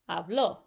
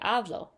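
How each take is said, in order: First: The stress is on the last syllable. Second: The stress is on the first syllable. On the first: You, he or she spoke, in the past. "you're going to emphasize right here" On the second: I speak, in the present. "you're always going to put the emphasis on the second to last vowel"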